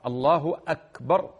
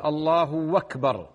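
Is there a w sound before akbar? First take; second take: no; yes. First: A clean glottal stop begins akbar, no w. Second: The u vowel stretches into a w before akbar. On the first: The speaker calls it right. "الهمزة همزة أكبر على القطع" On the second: The speaker calls it wrong. "يشبع الضمة حتى تصبح واوا، وهذا غلط أيضا"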